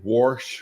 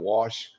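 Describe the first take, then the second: First: The word is said with an R sound. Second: The word is said without an R sound. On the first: "he put an R in all kind of words where they don't have an R" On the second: "instead of"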